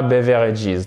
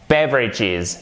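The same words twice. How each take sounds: First: "beverages" in four full syllables, be-VE-re-ges; "beverages" wrongly spread out as bev-è-re-jiz; mispronounced demo. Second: "beverages" as BEV-ridges, stressed first and falling; "beverages" in three syllables, first one stressed; correct tonic stress. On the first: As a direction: say "beverages" with every written vowel sounded. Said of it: "C'est pas beverages". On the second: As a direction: punch BEV in "beverages", swallow the middle vowel. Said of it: "C'est pas beverages, non". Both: Shown as a demonstration.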